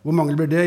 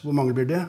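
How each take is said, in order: First: "Hvor mange blir det?" repeated louder, pressing, rising on det; insistent repeat. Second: Said in the usual way. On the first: Acted. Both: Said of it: "gjentar troppsføreren".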